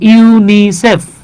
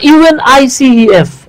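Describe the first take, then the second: First: It is spoken as one single word. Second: Each letter is spoken separately. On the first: It is treated as an acronym. The speaker calls it right. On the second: It is treated as an abbreviation. The speaker calls it wrong.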